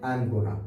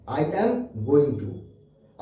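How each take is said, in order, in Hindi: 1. "Going to" छोटा होकर "gonna" बोला जाता है। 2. "Going to" पूरा बोला जाता है। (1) "अंग्रेज लोग बोलते हैं आई एम गोना" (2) "फर्स्ट है आपका आई एम गोइंग टू"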